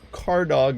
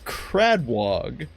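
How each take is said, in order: First: The name begins with a plain 'car' sound. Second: The name begins with a 'crad' cluster. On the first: The speaker calls it wrong. "I had been incorrectly saying Cardog's name" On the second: The speaker calls it right. "It's Cradwog"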